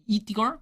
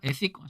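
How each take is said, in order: First: The word starts with an 'ee' vowel. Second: The word starts with an 'eh' vowel. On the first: The speaker calls it wrong. "이티컬이라고 해버렸네요" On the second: The speaker calls it right. "정확히 에시컬?"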